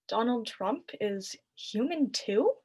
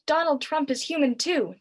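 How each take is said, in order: First: It sounds doubtful, like a puzzled question. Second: It is shouted back with enthusiasm.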